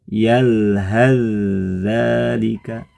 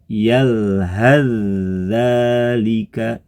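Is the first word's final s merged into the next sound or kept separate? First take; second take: merged; merged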